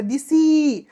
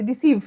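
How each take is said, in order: First: দিসি said as "disi", Bengali for "I gave", in place of deceive; teacher bending deceive into দিসি as a memory trick; mnemonic pronunciation. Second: Said in the usual way. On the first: Shown as a demonstration. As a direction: turn deceive into দিসি, disi, to make it stick. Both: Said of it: "তো তুমি পড়বে এমনি".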